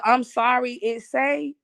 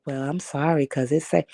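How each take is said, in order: First: Higher, sassy fake-sorry tone; mock snooty apology. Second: Said in the usual way. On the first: Imitating the cashier's snooty sorry, pitched up. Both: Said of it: "when she hit me with the".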